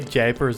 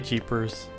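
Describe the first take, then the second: First: The first vowel sounds like 'jay'. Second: The first vowel sounds like 'jee'. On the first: "I don't say japers" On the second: "I say jeepers"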